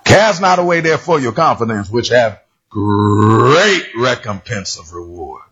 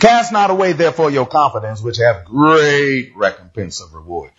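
First: It is read in a Tony the Tiger voice. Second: It is read in his plain voice.

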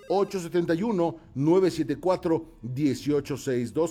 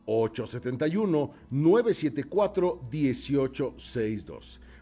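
First: The number is said at a faster pace. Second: The number is said at a slower pace.

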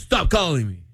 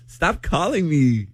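First: It sounds serious and firmly meant. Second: It sounds playful, not really meaning it.

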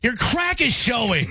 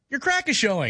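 First: It is said in an angry tone. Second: It is said in a supportive tone.

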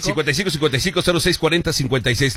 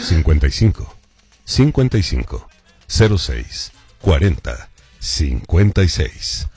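First: The number is read at normal speed. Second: The number is read more slowly.

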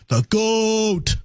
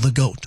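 First: Goat rises slightly, is drawn out, then falls. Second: The word goat is short and quick.

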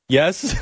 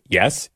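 First: It is a meek, submissive yes. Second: It is a plain, matter-of-fact yes.

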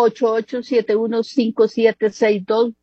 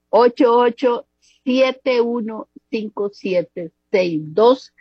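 First: The number is said at a quicker pace. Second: The number is said at a slower pace.

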